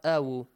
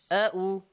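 First: A w sound links the two vowels. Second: A glottal stop separates the two vowels. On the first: The speaker calls it wrong. "not awu" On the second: The speaker calls it right. "you have to pronounce the hamza, not waw"

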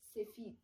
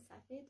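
First: It is said with an Iranian Persian accent. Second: It is said with a Tajik Persian accent. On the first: "در فارسی ایرانی میشه" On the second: "در تاجیکی میشه"

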